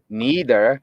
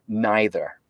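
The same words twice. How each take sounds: First: It is said in a North American way. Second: It is said in a British way. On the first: The speaker learned English in North America. "that is a North American pronunciation" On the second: The speaker learned English in Britain. "somebody who learned English in, in Britain"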